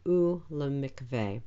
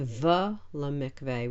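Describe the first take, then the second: First: The word starts with a u vowel. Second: The word starts with a v consonant. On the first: The speaker calls it right. "we say u lemikveh" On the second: The speaker calls it wrong. "we don't say v lemikveh"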